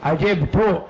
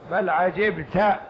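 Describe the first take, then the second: First: عجبت said 'ajibtu, ending in -u; damma on the ta. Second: عجبت said slowly as 'ajibta; fatha on the ta. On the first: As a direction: end عجبت on a rounded "tu". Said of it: "ضم التاء". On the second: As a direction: draw out عجبت, ending on an open "ta". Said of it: "على قراءة فتح التاء". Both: Shown as a demonstration.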